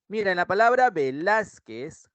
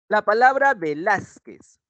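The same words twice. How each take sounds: First: Said in the usual way. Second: Velázquez slowed, with the stress landing hard on lás; teacher spelling out Velázquez slowly, punching lás; stressed example. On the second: Shown as a demonstration. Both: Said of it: "la mayor intensidad".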